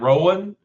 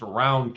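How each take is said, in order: First: It is said the usual way for the name. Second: It is said the Eastern Kentucky local way. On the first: It names the person. "It's spelled like your name" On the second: It names the local county. "That's Eastern Kentucky, uh, sounding there"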